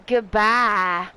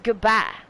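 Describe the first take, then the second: First: The vowel in bye is stretched out long. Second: The vowel in bye is short and plain. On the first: The speaker calls it wrong. "it's not always goodbye" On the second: The speaker calls it right. "It's just goodbye"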